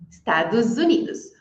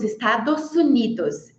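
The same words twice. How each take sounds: First: The final s of Estados sounds like z. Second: The final s of Estados sounds like s. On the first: The speaker calls it right. "Estados Unidos ficou um som de Z ali" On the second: The speaker calls it wrong. "Você já deve ter ouvido algum americano falando"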